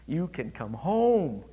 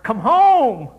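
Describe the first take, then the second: First: It is said at normal volume. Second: It is said loudly.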